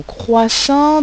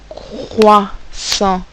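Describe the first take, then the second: First: Said in the usual way. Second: CROISSANT slowly in two beats, crois held, pause, sant; split into syllables. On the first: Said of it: "d'abord le mot croissant". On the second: Shown as a demonstration. Teacher showing pupils two syllables, split into syllables. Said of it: "j'ai bien deux syllabes".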